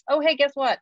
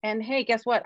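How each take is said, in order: First: Excited. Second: Said in the usual way. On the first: Retold or imitated. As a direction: burst out with delighted pride. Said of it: "I'm like". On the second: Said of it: "I'm a fucking great writer".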